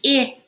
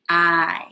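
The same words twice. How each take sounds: First: The vowel is said as its short sound. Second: The vowel is said as its letter name. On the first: "Instead of saying I" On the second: "Magic E makes the vowel say its name"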